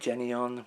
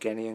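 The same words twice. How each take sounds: First: The first syllable does not sound like 'Gen'. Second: The first syllable sounds like 'Gen'. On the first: This is the pronunciation the company uses. "They say Genion, which is probably how you pronounce it" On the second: This is the speaker's habitual pronunciation. "I've always said Genion because of Barefoot Gen"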